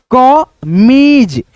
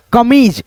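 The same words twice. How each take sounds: First: कमीज with the मी vowel held very long; stretched long ee. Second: Said in the usual way. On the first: Shown as a demonstration. Teacher dictating कमीज to pupils, long ee stretched out. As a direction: draw out कमीज slowly, holding the long ee. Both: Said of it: "उच्चारण को हम लोग अच्छे से सुनेंगे".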